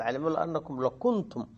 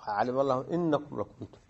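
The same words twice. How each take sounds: First: أنكم opened with an "a" vowel, annakum; the faulty "a" reading in أنكم before lam; hamza with fatha. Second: إنكم opened with an "i" vowel, innakum; corrected "i" reading in إنكم before lam; hamza with kasra. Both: Shown as a demonstration. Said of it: "كان الواجب الكسر".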